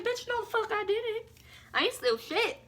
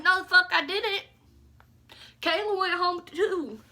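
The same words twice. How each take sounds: First: Sharp high-pitched scoff; sassy outrage. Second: Loud, higher angry comeback; angry denial. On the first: Accused again, high sassy outraged denial. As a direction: fling it back with attitude. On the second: Accused by the girls, loud angry denial. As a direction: push back hard and loud. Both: Retold or imitated. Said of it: "I was like".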